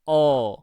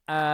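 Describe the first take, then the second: First: The vowel is heavy and dark, near o. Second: The vowel is light and bright, a clear a. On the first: "kalau ini kita baca tebal, ya, maka bunyinya kurang lebih seperti ini" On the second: "Sedangkan yang tipis"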